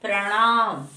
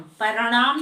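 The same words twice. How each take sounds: First: प्रणाम with p and r joined as pr; correct pranaam. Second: प्रणाम with a vowel between p and r; wrong paranaam. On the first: Teacher giving class the correct प्रणाम. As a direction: tight pr in प्रणाम. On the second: Teacher showing students the wrong प्रणाम. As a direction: say प्रणाम as pa-ra-naam. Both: Shown as a demonstration. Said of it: "प्रणाम नहीं बोलते हैं".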